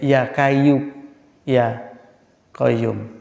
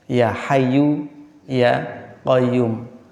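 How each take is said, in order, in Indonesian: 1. Kata kedua diawali dengan bunyi K yang keras. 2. Kata kedua diawali dengan bunyi H yang berhembus.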